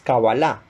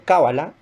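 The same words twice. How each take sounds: First: The stress is on the last syllable. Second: The stress is on the first syllable. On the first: The speaker calls it right. "la pronunciación más acertada ... es cábala, con tilde al final" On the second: The speaker calls it wrong. "generalmente ustedes lo van a encontrar como cábala"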